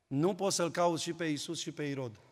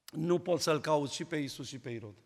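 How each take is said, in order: Both takes have the same delivery.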